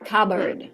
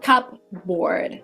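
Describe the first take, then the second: First: The p sound is silent in the middle. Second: The p sound is pronounced in the middle. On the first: The speaker calls it right. "The P is silent" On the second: The speaker calls it wrong. "so it's not cupboard"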